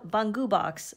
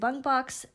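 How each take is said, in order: First: The first word is said as two syllables. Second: The first word is said as one syllable. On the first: The speaker calls it right. "The proper pronunciation is Bungu Box" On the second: The speaker calls it wrong.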